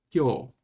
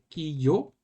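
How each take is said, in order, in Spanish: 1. Se pronuncia en una sola sílaba fusionada. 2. Se pronuncia en dos sílabas separadas. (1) "se convierten con un yo pequeño" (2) "Es muy diferente"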